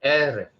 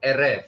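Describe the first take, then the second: First: "Eref" stressed on the first E, falling away after; first-syllable stress. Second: "eref" with the second syllable stressed; misplaced final stress. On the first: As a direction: hit the opening E of "Eref". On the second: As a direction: lean on the end of "eref" instead of its start. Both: Real, not acted. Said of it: "the first syllable".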